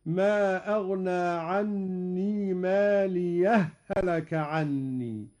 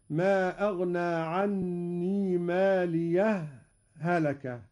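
First: Slow, ماليه melted into هلك as one doubled ha; merged ha. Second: Slow, a short silent stop between ماليه and هلك; brief pause. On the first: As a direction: merge the two ha sounds. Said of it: "وهذا هو الإدغام". (إدغام الهاء في الهاء) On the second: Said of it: "هذا هو السكت". (سكتة لطيفة بين ماليه وهلك) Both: Shown as a demonstration.

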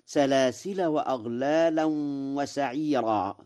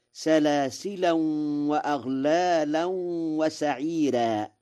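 First: "سلاسل" linked on without nunation; without tanween. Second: "سلاسلا" ending -an, linked to what follows; with tanween. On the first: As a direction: read "سلاسل" as salasila, no final n. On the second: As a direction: recite "سلاسلا" as salasilan, nasal ending into the next word. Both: Shown as a demonstration. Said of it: "بالتنوين وصلا في سلاسل".

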